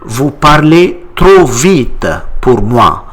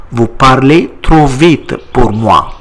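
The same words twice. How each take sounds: First: Vous parlez trop vite pour moi, clear French, stress on trop; model answer. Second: Vous parlez trop vite pour moi again, evenly; repeat model. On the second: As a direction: repeat it so the class can follow. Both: Shown as a demonstration. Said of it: "How do you say it in French?".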